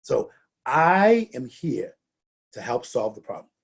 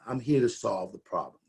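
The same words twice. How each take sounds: First: So I am here slowed, help stressed; firm stress on here and help. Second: Calm. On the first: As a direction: land on here and help to show control. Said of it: "how you emphasize, which words you emphasize". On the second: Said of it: "bring that high energy down". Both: Shown as a demonstration.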